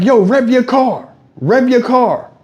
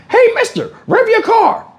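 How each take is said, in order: First: Put-on a bit higher, slower kid request; lightly voiced eager kid; imitating kids. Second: Put-on very high squeaky child; kid voice. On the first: Kids at the car window begging, lightly voiced kid. Kids asking him to rev. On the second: Kid hanging in window begging, squeaky high. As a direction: squeak it like a pestering little kid.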